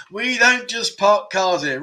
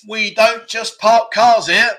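First: Drawn-out, raised-pitch repeat of the riddle; slow clue repeat. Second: High, loud, slow and emphatic; quiz clue announcement. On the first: Quiz host repeating clue number two, slow and deliberate. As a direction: repeat it slowly, a little less forcefully. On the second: Quiz host giving clue number two, loud and drawn-out. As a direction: proclaim the riddle with drawn-out words. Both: Acted.

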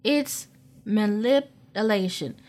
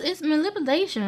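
First: "It's manipulation" said slowly, every syllable weighted; slow emphatic. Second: Quick and high, tossed off. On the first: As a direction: lean on "manipulation", drawn out and firm. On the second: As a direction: rush it out, pitched up. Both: Shown as a demonstration. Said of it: "I may be saying that with lisp".

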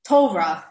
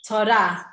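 First: "Torah" as TOY-ruh or TOH-vruh, first syllable punched. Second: "Torah" stressed on the final RAH; to-RAH, weight on the last syllable of "Torah". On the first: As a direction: hit the start of "Torah", reduce the end. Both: Shown as a demonstration.

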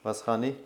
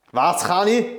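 First: Said in the usual way. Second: Raised, insistent repeat of the question; louder repeat. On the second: Real, not acted. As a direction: ask it again, louder and higher.

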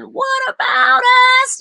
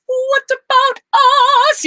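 First: Very high, louder falsetto cry; soaring falsetto pop wail. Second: Very high, louder falsetto wail; strained high pop cry. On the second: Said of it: "he's not going". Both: Retold or imitated.

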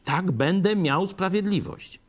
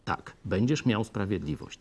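First: Higher and louder, a believer grabbing the promise; eager cry for justice. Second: Said in the usual way. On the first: Retold or imitated. Preacher voicing a believer who craves justice, eager and raised. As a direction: voice the believer's eager relief, lifted and loud. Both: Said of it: "człowiek by chciał sprawiedliwości".

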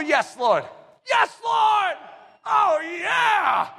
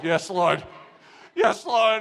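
First: Cheerful, eager. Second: Grudging, joyless yes; dour, miserable. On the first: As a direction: burst out with joyful eagerness. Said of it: "The cheerful". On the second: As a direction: say it like a chore you resent. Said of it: "it's miserable". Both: Retold or imitated.

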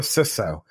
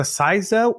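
First: Ciso said as SISS-oh; American pronunciation. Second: Ciso said as SIGH-zo; Australian pronunciation. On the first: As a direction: say ciso with a short "i" and an s sound. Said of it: "is it a ciso or a ciso". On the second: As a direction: say ciso with a long "eye" vowel. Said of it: "So it's ciso in Australia". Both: Retold or imitated.

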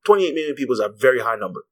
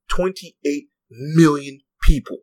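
First: Said in the usual way. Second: "Twenty-eight million people" drawn out slowly, each word weighed; slow emphatic repeat. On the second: Real, not acted.

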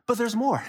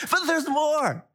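First: Hyped sales pitch; infomercial voice. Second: Higher, bigger TV-ad pitch; infomercial voice. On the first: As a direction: announce it like a TV ad. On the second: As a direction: push the hype even further. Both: Acted. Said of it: "I sound like an infomercial".

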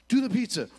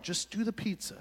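First: Loud, urgent do the pizza; buddy yelling instructions. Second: Said in the usual way. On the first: Retold or imitated. Buddy yelling at falling friend, loud and urgent. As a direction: shout it after him as he falls.

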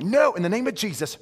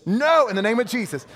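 First: A mild, slightly raised casting-out; mock rebuke. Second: Higher, louder casting-out; stronger mock rebuke. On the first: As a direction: rebuke the weed half in jest. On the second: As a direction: push the rebuke harder the second time. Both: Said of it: "I'm like".

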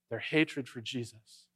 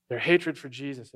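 First: Slow and softer, "Their hatred for Jesus" said low and grave; hushed emphasis. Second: Said in the usual way. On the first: Real, not acted. Preacher revealing what unites the rival groups, hushed and slow. Preacher repeats key phrase.

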